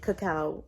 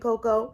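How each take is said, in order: First: The word is said as ca-cao. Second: The word is said as co-coa. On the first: The speaker calls it right. "that's the right pronunciation" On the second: The speaker calls it wrong. "I was just saying it wrong"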